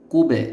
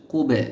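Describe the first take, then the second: First: কুবে with the ব bounced out, louder and held; qalqala bounce. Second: Said in the usual way. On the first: Shown as a demonstration. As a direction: give কুবে a jolting echo on ব. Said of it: "কলকলা করতে হবে বা ধাক্কা দিয়ে পড়তে হবে". (কুবে কলকলা দিয়ে ধাক্কা মেরে পড়া) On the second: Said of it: "কলকলা করতে হবে".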